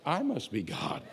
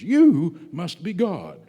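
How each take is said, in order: First: Soft, haughty voice of the cat; soft, snooty cat; smug cat voice. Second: Slow, laughing adoring dog; laughing, slow devoted dog. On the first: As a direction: play the cat, self-satisfied and aloof. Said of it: "you know what your cat says?". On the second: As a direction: gush like a devoted pet, with a laugh. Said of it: "your dog looks at you and says". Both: Retold or imitated.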